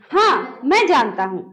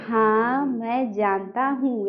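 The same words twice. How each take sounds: First: Crisp हाँ, short break, then मैं जानता हूँ; pause after हाँ. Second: Slow, soft, low drawn-out हाँ मैं जानता हूँ; wrong droning reading. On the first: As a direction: set हाँ apart with a brief pause. (हाँ के बाद थोड़ा विराम) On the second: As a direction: drag out हाँ and every word after it, quietly. (हाँ मैं जानता हूँ को धीमे, खींचकर बोलना) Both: Shown as a demonstration. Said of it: "ऐसे नहीं".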